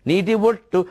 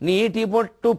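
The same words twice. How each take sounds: The two takes are said the same way.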